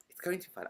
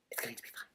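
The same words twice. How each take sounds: First: Voiced, high and insistent; high, self-convincing cheer; high-pitched reassurance. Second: Hushed, soft muttering to oneself; barely voiced reassurance; whispered self-reassurance. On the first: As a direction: say it aloud in a raised pitch. Repeats reassurance aloud, higher. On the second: Reassuring herself, then repeated aloud. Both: Real, not acted.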